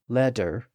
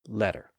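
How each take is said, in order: First: The middle consonant is a D sound. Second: The middle consonant is a quick tap. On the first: The middle stage of the sound. "to a D sound" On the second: The contemporary stage of the sound. "more of a tap"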